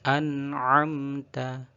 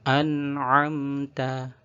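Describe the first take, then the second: No difference in how they are said.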